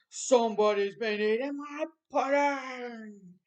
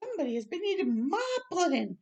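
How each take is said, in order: First: It is said in a great big voice. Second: It is said in a middle-sized voice.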